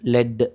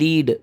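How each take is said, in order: First: The vowel is a short 'eh'. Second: The vowel is a long 'ee'. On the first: A mineral substance. "லெட் அப்படின்னா நிலக்கரி" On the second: To guide others. "லீடுனா வழி நடத்துறது"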